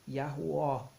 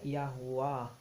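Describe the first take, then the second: First: The name ends with a closed 'o' sound. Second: The name ends with a 'wah' sound. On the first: "o O fechado no final" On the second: "não seria Yahuwah"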